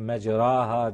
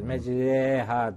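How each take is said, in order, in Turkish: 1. Ortadaki ses açık bir 'a'dır. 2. Ortadaki ses 'e'ye doğru önlüdür. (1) "bunun tabi mecraha diye okunmadığını bilirler" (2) "Mecreha diye okunur"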